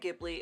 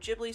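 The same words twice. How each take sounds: First: The word begins with a hard g sound. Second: The word begins with a j sound. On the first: "I say Ghibli. It sounds cooler" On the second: "Ghibli sounds like giblet to me"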